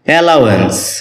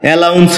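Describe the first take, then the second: First: It is said as 'alawens', with three syllables. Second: It is said as 'alauns', with two syllables. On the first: This is the correct pronunciation. The speaker calls it right. "যার সঠিক উচ্চারণ হচ্ছে অ্যালাওয়েন্স" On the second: This is how it is commonly said. The speaker calls it wrong. "এটাকে আমরা অ্যালাউন্স বলে থাকি"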